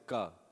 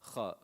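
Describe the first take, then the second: First: The first consonant is a hard stop. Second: The first consonant is a breathy, scraping sound. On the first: The speaker calls it wrong. "they just say ka" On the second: The speaker calls it right. "They don't say kha"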